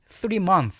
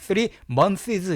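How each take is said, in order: First: The final s of months is silent. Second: The final s of months is pronounced. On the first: The speaker calls it right. "그냥 three months 하셔야 됩니다" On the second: The speaker calls it wrong. "이렇게 하시면 안 돼. s를 발음하지 않습니다"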